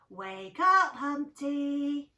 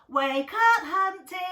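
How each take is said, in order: First: It is said at normal, quieter volume. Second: It is shouted, louder than before.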